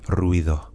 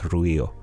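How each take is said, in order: First: The d between the vowels is pronounced softly. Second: The d between the vowels is left out. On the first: "It's very soft" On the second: "sometimes that D is gone"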